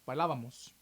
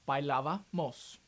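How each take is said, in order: First: The word is said quickly. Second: The word is said slowly.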